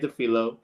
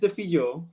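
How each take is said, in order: First: The name is said with an American pronunciation. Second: The name is said in its original pronunciation. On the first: The speaker calls it wrong. "You can say it American way" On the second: The speaker calls it right. "let me say it correctly"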